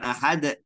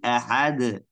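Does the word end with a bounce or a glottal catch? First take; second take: glottal catch; bounce. First: The final consonant is cut off by a glottal catch. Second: The final consonant is released with a bounce. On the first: The speaker calls it wrong. "Salah, bukan" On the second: The speaker calls it right.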